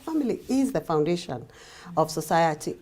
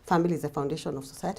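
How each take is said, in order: First: It is said firmly, with sincere conviction. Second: It is said lightly, like a tired cliche. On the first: It is a real truth that matters. The speaker calls it right. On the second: It is a stock phrase people repeat without thought. The speaker calls it wrong.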